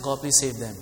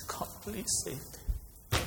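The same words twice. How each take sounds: First: Said in the usual way. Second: Heartfelt plea. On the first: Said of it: "I mean, not just". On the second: Shown as a demonstration. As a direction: let the burden weigh on each word.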